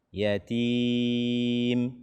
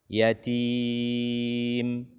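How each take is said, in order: Both takes have the same delivery.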